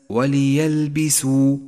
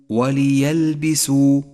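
The two takes are said the same way.

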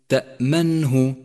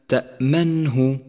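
No difference in how they are said.

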